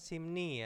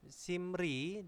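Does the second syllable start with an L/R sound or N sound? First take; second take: N sound; R sound. First: The second syllable starts with an N sound. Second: The second syllable starts with an R sound. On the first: "dibacanya simni ya" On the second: "ini simri"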